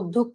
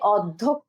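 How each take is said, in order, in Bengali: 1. প্রথম স্বরধ্বনিটি বদ্ধ 'o' ধ্বনি। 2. প্রথম স্বরধ্বনিটি বিবৃত 'aw' ধ্বনি। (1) "আমরা বলি কি অধ্যক্ষ" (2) "আমরা কিন্তু বলি না যে অধ্যক্ষ, এভাবে বলি না"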